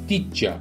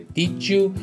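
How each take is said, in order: First: The second word is reduced to 'ya'. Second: The d and y merge into a 'j' sound. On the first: "یا حتی did ya" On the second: "شبیه جو تلفظ میشه"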